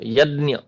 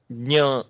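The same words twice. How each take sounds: First: यज्ञ said as "यद्न्य"; यज्ञ with a d-ny sound; Marathi pronunciation. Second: ज्ञ said as "ज्ञ" with a nasal ञ; ज्ञ with j and palatal ny; pure Sanskrit pronunciation. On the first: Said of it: "द उसमें आ जाता है". (मराठी उच्चारण: "यज्ञ" में द और न्य) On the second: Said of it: "शुद्ध उच्चारण है वो ज्ञ है". (शुद्ध संस्कृत उच्चारण में "ज्ञ", ज और ञ मिलाकर) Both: Shown as a demonstration.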